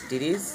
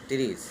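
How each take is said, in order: No difference in how they are said.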